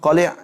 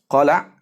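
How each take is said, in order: First: The L is followed by the vowel i. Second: The L is followed by the vowel a. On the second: "dibaca dengan fathah"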